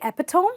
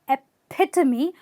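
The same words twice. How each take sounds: First: The second syllable is not stressed. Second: The second syllable is stressed. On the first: The speaker calls it wrong. "stop saying that" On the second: The speaker calls it right. "where you are stressing the pit"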